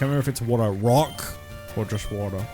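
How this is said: The emphasis falls on the expected word. The speaker calls it right. "I said it right that time"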